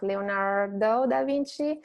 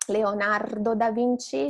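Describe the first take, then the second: First: Leonardo da Vinci with an untrilled, drawn R; wrong English R. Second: Leonardo da Vinci with a rolled R; Italian pronunciation. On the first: Teacher imitates the mistake, Leonardo with English R. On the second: Teacher models Leonardo da Vinci with Italian R. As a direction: trill the R in Leonardo. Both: Shown as a demonstration. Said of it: "it's not Leonardo da Vinci".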